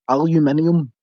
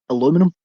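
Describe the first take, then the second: First: It has five syllables, British style. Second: It has four syllables, American style. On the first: The speaker calls it right. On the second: The speaker calls it wrong.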